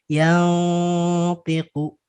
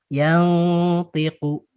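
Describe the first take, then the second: Both takes have the same delivery.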